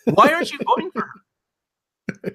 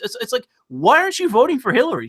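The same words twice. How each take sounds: First: Higher and slowed, each word pressed: "Why aren't you voting for her?"; slow emphatic repeat. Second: Said in the usual way. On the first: Real, not acted. Pressing conservatives on why not vote for her, slow emphatic repeat. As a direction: drag out "Why" and lean on every word.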